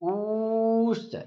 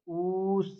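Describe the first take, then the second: First: The vowel is stretched for three beats. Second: The vowel is held for two beats. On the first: "इतना लंबा खींच दिया ना, तीन मात्राओं का समय लग गया" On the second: "द्विमात्री दो मात्रा का उच्चारण लगेगी"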